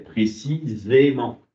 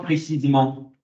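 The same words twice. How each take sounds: First: The e before -ment is a clear é. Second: The e before -ment is nearly silent. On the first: The speaker calls it right. "il y a un rajout d'accent, un accent aigu" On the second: The speaker calls it wrong. "ça fait pas précisément"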